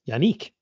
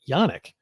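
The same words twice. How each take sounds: First: The name ends like the word 'unique'. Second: The name ends with a short 'nick' sound. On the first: This is how others have been saying it. "I keep hearing it being pronounced Yannick, like unique" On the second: This is how the speaker has been saying it. "I pronounce it Yannick"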